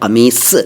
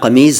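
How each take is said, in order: First: The word ends with an s sound. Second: The word ends with a z sound. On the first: This is the correct original form. The speaker calls it right. "लेकिन है कमीस, स है" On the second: This is the common but mistaken form. The speaker calls it wrong. "चलता है कमीज़"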